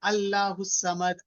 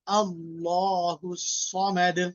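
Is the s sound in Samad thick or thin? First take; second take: thin; thick. First: The s sound in Samad is thin. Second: The s sound in Samad is thick. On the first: The speaker calls it wrong. "इसको ऐसे नहीं बोलेंगे" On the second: The speaker calls it right. "we need to pronounce it with a thick sound"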